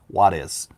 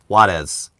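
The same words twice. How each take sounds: First: The word sounds like 'what is' with a D. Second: The word sounds like 'what is' with a D.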